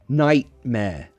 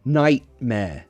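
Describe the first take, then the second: First: It is said in a British accent. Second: The same.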